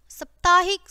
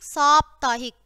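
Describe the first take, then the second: First: साप्ताहिक said "saptaahik", short first vowel; wrong short vowel. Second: साप्ताहिक said "saaptaahik", long first "aa"; correct long vowel. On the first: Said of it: "पहले हमारी अशुद्ध शब्द है". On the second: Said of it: "ये शब्द शुद्ध है". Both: Shown as a demonstration.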